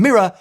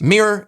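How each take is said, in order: First: It is said in a British accent. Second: It is said in an American accent. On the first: "something I probably will never say in a British accent" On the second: "is just what sounds right to me"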